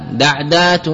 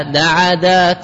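First: دعدات said daʕdat, second letter ع unvoweled; plain دعدات with a silent ع; plain base form. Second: دعدات said slowly as daʕadat, ع given the a of the د; slow دعدات with the vowel copied onto ع, daʕadat; vowel echoed. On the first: Teacher gives the base plural دعدات before the rule, daʕdat. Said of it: "الأصل أنك إذا جمعته بألف وتاء يسلم". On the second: Teacher shows the vowel harmony on دعدات, slow daʕadat. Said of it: "حركت العين بما حركت به الفاء". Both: Shown as a demonstration.

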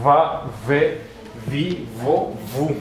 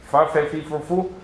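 First: VA VE VI VO VU with buzzed v; voiced v drill. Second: FA FE FI FO FU with airy f; voiceless f drill. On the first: Teacher comparing two similar sounds, buzzing v syllables. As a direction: hold a humming v before each vowel. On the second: Teacher comparing two similar sounds, voiceless f syllables. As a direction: recite the f syllables evenly. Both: Shown as a demonstration. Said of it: "la pronunciación de una a la otra es muy similar".

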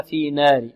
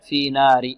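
First: في نار with the a tilted toward e; في نار with a fronted, raised vowel; wrong imala. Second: في نار with a straight open "aa"; في نار with pure "naar", light n; correct open alif. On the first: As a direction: let نار slide to "neer". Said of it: "تقليل أو إمالة". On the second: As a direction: keep نار open, untilted. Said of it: "لا، في نار". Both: Shown as a demonstration.

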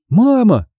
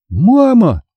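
First: Put-on high, eager child calling for mum; first, lighter excited call; exclaiming. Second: High, insistent cry for Mum; urgent child's call, drawn out; louder repeated call. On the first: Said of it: "воскликнула я". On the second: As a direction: call Mum more forcefully to get her attention. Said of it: "повторила я громче". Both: A narrator's reading.

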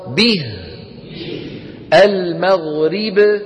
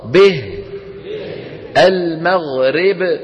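First: به as "bih", المغرب as slow "al-maghrib"; correct kasra. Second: به as "beh", المغرب as slow "al-maghreb"; wrong kasra. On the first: Teacher models the right way for students, pure kasra. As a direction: chant both words with a pure i. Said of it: "الصواب". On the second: Teacher models the error for students to repeat, tilted kasra. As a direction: chant both words with eh for the kasra. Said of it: "ننطق الخطأ". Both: Shown as a demonstration.

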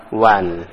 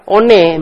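First: One said as wan, the English way; one dibaca wan. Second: One said as o-ne, letter by letter as written; one dibaca o-ne sesuai tulisan; one as spelled. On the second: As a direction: read one as o-ne the way it looks. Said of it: "Mestinya baca one". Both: Shown as a demonstration.

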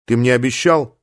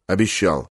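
First: "обещал" left open as a question; questioning reminder. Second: "Обещал" low, with a falling tune; low, subdued "Обещал", closing down; reluctant admission. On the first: Dying friend demands the promise be kept. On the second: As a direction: concede with a dropped "Обещал". Friend reluctantly admits he promised. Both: A narrator's reading.

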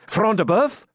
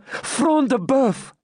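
First: High, rising astonishment; exclaimed question. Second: Higher, slow, drawn-out confirmation; emphatic answer. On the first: Knight checks who has fallen, exclaiming. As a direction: ask it in eager surprise. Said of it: "exclaimed Ivanhoe". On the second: Maiden confirms to knight who fell, emphatic. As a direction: proclaim the name slowly and high. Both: A narrator's reading.

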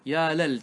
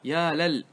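First: يا لل with the lam said la, ya lal; open the lam. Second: يا لل with the lam said li, ya lil; wrong vowel. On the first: Teacher shows students the right ya lal, open lam. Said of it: "تفتح اللام". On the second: Teacher shows students the wrong ya lil, vowel demo. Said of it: "ليس يا لل". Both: Shown as a demonstration.

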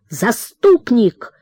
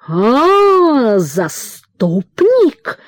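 First: "заступник" said slowly and firmly, falling at the end; defiant son. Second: Higher cry, then a drawn-out, very slow sneer on "заступник"; sneering father. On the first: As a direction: throw "заступник" back at him firmly. Son answering father defiantly. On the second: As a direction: stretch "заступник" out with scorn. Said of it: "и захрипел". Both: A narrator's reading.

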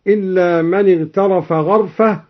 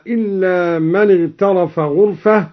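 First: غرفة said gharfa, not ghurfa; ghain with fatha. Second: Said in the usual way. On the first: Shown as a demonstration. Reciter demonstrating gharfa with fatha. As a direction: open the gh of غرفة with a. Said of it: "بفتح الغين". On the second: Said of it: "قرأ الدوري بفتح الغين".

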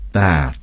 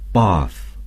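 First: "bath" with a flat short a; American bath. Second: "bath" with a long broad ah vowel; British bath. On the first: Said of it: "Americans would say". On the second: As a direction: say "bath" like "bahth". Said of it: "The British would say". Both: Shown as a demonstration.

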